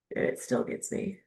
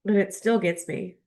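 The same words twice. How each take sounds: First: A moved, private whisper; tearful whisper. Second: Said in the usual way. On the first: Real, not acted. Touched by the book after ten years, whispering. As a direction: breathe it out, voice gone. Repeats line, then whispers it.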